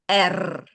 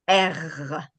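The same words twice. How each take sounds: First: The R sound is not rolled. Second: The R sound is rolled. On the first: "some people pronounce the R like this" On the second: "sometimes they do the rolling thing"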